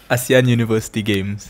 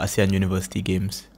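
First: It is said more loudly. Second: It is said at a normal, softer volume.

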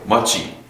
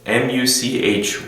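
First: The word ends cleanly without an added vowel. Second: The word ends with an added vowel sound. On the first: The speaker calls it right. "much으로 하시는 게 더 좋아요" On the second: The speaker calls it wrong. "much이라고 하면은 muchy 말하는 것 같아요"

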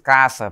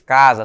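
First: The middle consonant is a voiceless S sound. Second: The middle consonant is a voiced Z sound. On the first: The speaker calls it right. "se diz caça, porque o S tem sempre som de S" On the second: The speaker calls it wrong. "não se diz casa"

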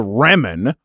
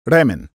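First: It starts with a hard English R sound. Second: It starts with a sound between R and L. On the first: The speaker calls it wrong. "The Japanese wouldn't say remen" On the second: The speaker calls it right. "it's more of a sound between a hard R and L sound"

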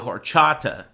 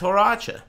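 First: It is said as 'horchata', with the 't' sound. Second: It is said as 'horacha', without the 't' sound. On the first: The speaker calls it right. "It's actually horchata" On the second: The speaker calls it wrong. "I'm pronouncing it wrong too"

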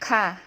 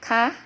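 First: The pitch falls from high to low. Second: The pitch is high and rises slightly. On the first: "เสียงโท" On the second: "เสียงตรี"

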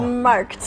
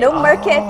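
First: The word is said with one syllable. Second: The word is said with two syllables. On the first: The speaker calls it right. "it's Markt" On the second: The speaker calls it wrong. "so there's no market"

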